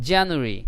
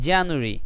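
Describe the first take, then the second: Both takes have the same delivery.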